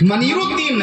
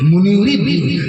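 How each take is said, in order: First: The first vowel is an 'a' sound. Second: The first vowel is a 'u' sound. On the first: The speaker calls it wrong. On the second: The speaker calls it right.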